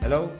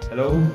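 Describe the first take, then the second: First: The amplified voice is played at lower volume. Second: The amplified voice is played at higher volume. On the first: "Volume down natin" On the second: "Volume up"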